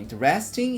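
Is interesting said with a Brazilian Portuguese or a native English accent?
Brazilian Portuguese. It is said with a Brazilian Portuguese accent. The speaker calls it wrong. "Os alunos falam interesting"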